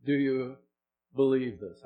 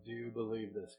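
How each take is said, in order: First: "believe" pressed loud; loud, pressing "Do you believe this"; challenging question. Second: Softer, "believe" falling gently; quiet, searching "Do you believe this"; quiet repeat. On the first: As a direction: push "believe" at them. Preacher challenging the listener. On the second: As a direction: drop it down to a hush. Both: Real, not acted.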